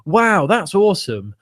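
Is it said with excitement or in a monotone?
excitement. It is said with lively excitement.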